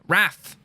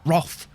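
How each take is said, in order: First: The vowel is an 'a' sound. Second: The vowel is an 'o' sound. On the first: The speaker calls it right. "It's an A. Wrath" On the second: The speaker calls it wrong. "why do they sometimes pronounce it Roth?"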